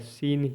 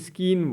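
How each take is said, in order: First: The word begins with a plain s sound. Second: The word begins with an sk sound. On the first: The speaker calls it right. "सी silent रहता है, सीन ही पढ़ेंगे" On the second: The speaker calls it wrong. "इसको कुछ लोग स्कीन बोलते हैं"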